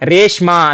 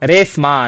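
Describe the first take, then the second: First: The consonant before 'm' is 'sh'. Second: The consonant before 'm' is plain 's'. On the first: The speaker calls it right. "ರೇಷ್ಮಾ ಅಂತ ಇದ್ರೆ" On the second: The speaker calls it wrong. "ಶಾನ ಸಾ ಅಂತ use ಮಾಡ್ತಾರೆ"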